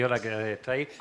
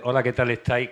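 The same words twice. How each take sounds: First: Said in the usual way. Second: Announcer delivery, projected and even; radio voice. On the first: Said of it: "con voz de". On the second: Shown as a demonstration. Presenter demonstrating her radio voice for the show. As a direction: sound like a radio host greeting listeners. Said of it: "con voz de radio".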